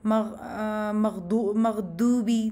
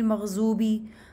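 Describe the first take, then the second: First: The middle consonant sounds like a d. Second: The middle consonant sounds like a z. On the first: "दाल की तरह उसको पढ़ेंगे" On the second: "इसके साथ भी हम यही करते हैं"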